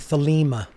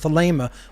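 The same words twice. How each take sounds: First: The second vowel is not a long A. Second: The second vowel is a long A. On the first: The speaker calls it wrong. "a lot of people out there say Thelema. I hear this all the time because they're pronouncing the second E" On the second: The speaker calls it right. "It is a long A sound. The eta sound in Thelema"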